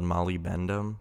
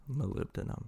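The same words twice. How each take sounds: First: Molybdenum said as spelled, mah-lee-BEN-dum; spelling pronunciation. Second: Molybdenum said muh-LIB-duh-num, stress on LIB; correct pronunciation. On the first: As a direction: read molybdenum letter by letter as spelled. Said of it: "it's kinda spelled molybdenum". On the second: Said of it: "I believe it's pronounced molybdenum". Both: Shown as a demonstration.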